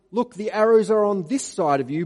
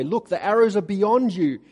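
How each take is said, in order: First: Loud called signal, rising on arrows. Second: Loud called signal, falling on arrows. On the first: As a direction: call it across the field to the boy. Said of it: "If I say to him". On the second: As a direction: shout it out to the boy as a warning. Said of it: "if I say to the boy". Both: Retold or imitated.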